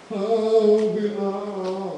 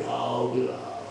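First: Long drawn-out, higher sing-song ghost wail; haunt the children with stretched vowels; mock ghost howl; spooky ghost. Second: Lower, drawn-out spooky ghost call; mock ghost voice, low and ominous; ghost through cloth. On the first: Mother acts ghost through sari. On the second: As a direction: play a low ghost to scare children. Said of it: "Pressing her face against the sari".

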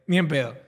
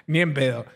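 Both takes have the same delivery.

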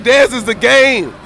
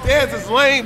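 First: "Dez is the game" drawn out slowly, stressing "Dez"; slow corrected retort. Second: Said in the usual way. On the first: Shown as a demonstration. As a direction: twist the insult into a boast, slow and proud.

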